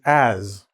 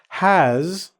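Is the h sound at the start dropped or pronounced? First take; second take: dropped; pronounced. First: The word begins with no h sound. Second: The word begins with a clear h sound.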